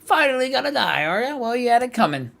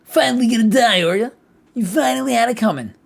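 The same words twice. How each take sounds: First: High, far-off mocking voice; sneering high taunt from the depths of her mind. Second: High, loud mocking voice; hammed-up high sneer; louder taunt. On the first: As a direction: jeer at her like a tormentor. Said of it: "cried a sudden voice". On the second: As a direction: jeer louder, pushing it.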